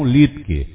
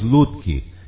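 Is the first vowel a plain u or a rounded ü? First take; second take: rounded ü; plain u. First: The first vowel is a rounded ü sound. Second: The first vowel is a plain u sound. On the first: This is the German family pronunciation of the name. "tem um ultremado, a gente pronuncia no alemão Lutke" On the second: This is how the national press says the name. "A imprensa nacional, quando trata do Matheus, diz o Matheus Lutke"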